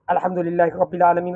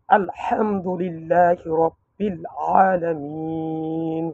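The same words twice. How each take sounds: First: It is recited quickly and hurriedly. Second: It is recited slowly and calmly.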